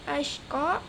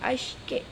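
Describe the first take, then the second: First: The final vowel is a plain open a. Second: The final vowel is fronted toward e.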